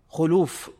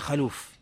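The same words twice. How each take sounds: First: The first vowel is a rounded 'u'. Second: The first vowel is an open 'a'. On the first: The speaker calls it right. "فالصواب خلوف" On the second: The speaker calls it wrong. "وليس خلوف"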